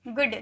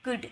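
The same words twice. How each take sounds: First: गुड with a long ऊ; the wrong long गुड; wrong good. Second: गुड with a short उ; गुड short and quick; the correct short गुड; right good. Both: Shown as a demonstration. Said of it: "गुड नहीं".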